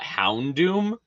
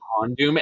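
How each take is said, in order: First: The first syllable sounds like 'hound'. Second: The first syllable sounds like 'hon'. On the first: The speaker calls it right. "and not Houndoom" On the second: The speaker calls it wrong. "you're saying Hondoom"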